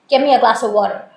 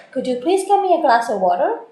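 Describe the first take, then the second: First: Quick, clipped-off order with a falling end; blunt direct command. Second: Softened, courteous ask rising at the end; polite request. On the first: Teacher demonstrating to OET students a dominating command. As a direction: bark it out like a bossy demand. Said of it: "It sounds a little dominating". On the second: Teacher showing OET students a polite softened request. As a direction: ask gently, like a considerate favour. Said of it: "Or I could make it polite". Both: Shown as a demonstration.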